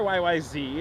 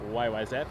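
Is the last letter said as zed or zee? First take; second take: zee; zed. First: The last letter is pronounced zee. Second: The last letter is pronounced zed. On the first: "if you're from the United States" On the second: "It's Zed"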